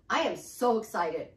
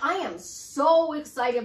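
First: Said in the usual way. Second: SO stretched long and louder; emphatic excitement. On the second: Shown as a demonstration. Coach models the mirror affirmation, emphatic with a drawn-out SO. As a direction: lean hard and slow on the word SO. Repeats affirmation with more feeling.

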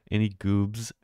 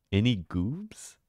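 First: Said in the usual way. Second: Slow, drawn-out goofy voice on "Any goobs?"; playful slow goofy call to chat; silly put-on voice. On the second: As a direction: stretch "Any goobs?" slowly in a silly character voice.

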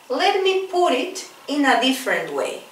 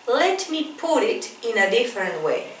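No difference in how they are said.

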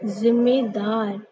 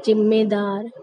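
First: जिम्मेदार as "zimmedaar", slow; z sound in जिम्मेदार. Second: जिम्मेदार mispronounced as "jimmedaar"; j sound in जिम्मेदार. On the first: Shown as a demonstration. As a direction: draw out जिम्मेदार from a buzzing z. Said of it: "जिसको बोल देते हैं लोग". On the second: Retold or imitated. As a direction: imitate people starting जिम्मेदार on a j. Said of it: "गलत उच्चारण हुआ".

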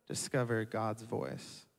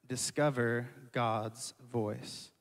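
First: Softer still, slow; softer repeat. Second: Softer, slow, hushed; soft slow point. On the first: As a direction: let it settle, almost hushed. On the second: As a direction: lower it to a reverent hush. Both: Shown as a demonstration. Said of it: "I have three points".

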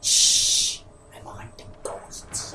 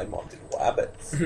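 First: Slow hushed whisper of a hunter sneaking; Elmer Fudd stage whisper. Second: Soft unvoiced hunter whisper; Elmer Fudd whisper. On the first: Pretend. Friend parodying Elmer Fudd to the group in a slow whisper. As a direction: whisper it like a cartoon hunter stalking. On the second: Friend joining the hunter parody in a quiet whisper. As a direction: breathe it like a sneaking cartoon hunter.

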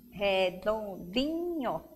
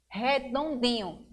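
First: "redondinho" slowly split as re-don-di-nho; four separate beats on "redondinho"; syllable by syllable. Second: Said in the usual way. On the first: Shown as a demonstration. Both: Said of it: "quer saber o número de sílabas".

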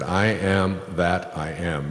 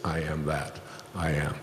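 First: Slow and solemn, each word given weight; slow, weighty declaration. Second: Quieter, dropped restatement; softer throwaway "I am that I am"; soft spoken aside. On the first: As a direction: lay it down slowly like scripture. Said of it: "He said". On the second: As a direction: murmur it back as a reflection. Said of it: "meaning everything that exists". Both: Shown as a demonstration.

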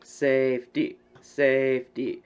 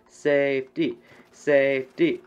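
No difference in how they are said.

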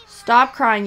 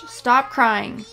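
First: Sterner, louder stop crying; firm, raised command; louder scolding. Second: Said in the usual way. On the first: Real, not acted.

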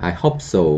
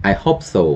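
No difference in how they are said.

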